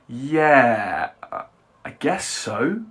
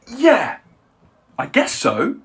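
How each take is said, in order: First: It is said in a doubtful tone. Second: It is said in an excited tone. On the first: The speaker is unsure about it. "Or with doubt" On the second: The speaker is happy about it. "Now say it with excitement"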